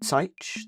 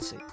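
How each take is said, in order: First: The vowel is an 'I' sound. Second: The vowel is an 'A' sound. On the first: The speaker calls it wrong. "I'm pretty sure I said it with like an I sound" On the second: The speaker calls it right. "It's A sound"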